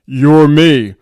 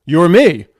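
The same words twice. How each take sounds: First: Loud, slightly deeper booming answer. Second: A firm, raised-volume answer. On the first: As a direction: boom it out like a greater being. Higher self repeats, more imposing. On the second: Higher self answers little Matt. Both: Acted.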